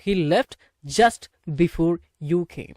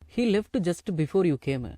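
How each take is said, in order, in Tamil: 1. left, just இரண்டும் t ஒலியிலேயே சுத்தமாக முடியும். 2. left, just இரண்டும் கூடுதல் உயிரெழுத்தோடு முடியும். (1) "அப்படின்னு பேசலாம்" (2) "அப்படிலாம் பேசக்கூடாது. இந்த லெஃப்ட்டுங்கிறத லெஃப்ட்னு உச்சரிங்க"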